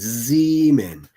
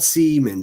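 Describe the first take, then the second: First: The name begins with a Z sound. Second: The name begins with an S sound. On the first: The speaker calls it right. "I've really got to enunciate the Z" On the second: The speaker calls it wrong. "not Seaman"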